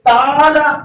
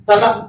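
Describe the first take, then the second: First: The syllables are stretched out long. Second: Each syllable is said briefly and cut off. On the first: The speaker calls it wrong. "అట్లా రావద్దండి" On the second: The speaker calls it right. "One second పలికి cut చేయాలి"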